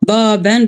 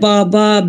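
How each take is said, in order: First: The word ends with an n sound. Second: The word ends with a plain vowel. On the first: The word is read within running speech. "Baben bir kapı" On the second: The word is read at a pause. "Ama bu durakta ise baba"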